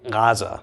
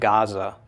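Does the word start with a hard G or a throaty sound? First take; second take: throaty; hard G. First: It starts with a throaty swallowed sound. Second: It starts with a hard G sound. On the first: The speaker calls it right. "it's Gaza" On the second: The speaker calls it wrong. "it's not Gaza"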